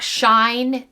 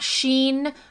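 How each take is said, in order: First: The name is said as one syllable, shine. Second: The name is said as one syllable, sheen. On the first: "not Shine" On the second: "not Sheen"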